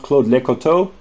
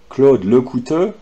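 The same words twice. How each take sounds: First: Lecoteau said wrongly, ending in an oh sound; mispronounced French name. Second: Lecouteux said the French way, ending in a rounded eu; correct French pronunciation. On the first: Retold or imitated. Showing Caroline's mistake to viewers, Lecoteau mispronounced with final oh. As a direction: say Lecoteau as leh-ko-TOH. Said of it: "is, uh, terrible". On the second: Shown as a demonstration. Correcting a presenter's mistake, Lecouteux in proper French pronunciation. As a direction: say Lecouteux as French luh-koo-TUH. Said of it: "your pronunciation of".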